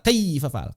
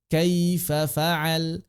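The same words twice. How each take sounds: First: 'Kaifa' is said with a hard jolt. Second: 'Kaifa' is said smoothly and lightly. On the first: The speaker calls it wrong. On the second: The speaker calls it right.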